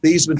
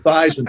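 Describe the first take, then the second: First: The name does not rhyme with Heisman. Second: The name rhymes with Heisman. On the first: This is the family's original pronunciation. "change the pronunciation of your last name from Thiesman" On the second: This is the new pronunciation chosen to help win the trophy. "to rhyme with Heisman"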